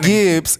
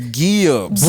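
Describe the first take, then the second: First: The name is said plainly, without a drawl. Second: The name is drawn out with a Southern drawl. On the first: The speaker calls it wrong. "It's not Gibbs" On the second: The speaker calls it right. "it's Gibbs"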